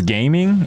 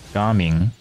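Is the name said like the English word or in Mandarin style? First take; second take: English; Mandarin. First: It is said like the English word gaming. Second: It is said with a Mandarin-style first syllable. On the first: "His name is Gaming?" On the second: "Pretty sure in Mandarin it's like"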